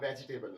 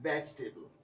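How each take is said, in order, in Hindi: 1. दूसरा 'e' उच्चारित होता है, इसलिए चार सिलेबल हैं। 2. दूसरा 'e' मौन है, इसलिए तीन सिलेबल हैं। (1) "वेजिटेबल नहीं" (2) "जो सही वर्ड बनेगा वो होगा वेजिटेबल"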